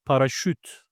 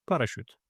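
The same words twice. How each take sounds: First: Parachute said as Turkish "pa-ra-şüt"; Turkish pronunciation. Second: Said in the usual way. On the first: Shown as a demonstration. Teacher giving learners the Turkish word, parachute as "paraşüt". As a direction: say parachute with a front rounded Ü at the end. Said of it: "The last vowel is Ü". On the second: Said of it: "And the next one is parachute".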